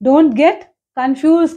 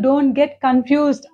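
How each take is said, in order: First: The last word ends without a final d. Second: The last word ends with a final d. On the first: The speaker calls it wrong. "Don't get కన్ఫ్యూజ్ కాదు" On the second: The speaker calls it right. "Don't get కన్ఫ్యూజ్డ్ అనాలి"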